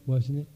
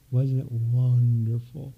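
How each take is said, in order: First: Said in the usual way. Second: Slow, savoured "Wasn't it wonderful?" with a lifting end; drawn-out wonder. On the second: Shown as a demonstration. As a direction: stretch out "wonderful" and let it rise. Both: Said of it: "Say it so".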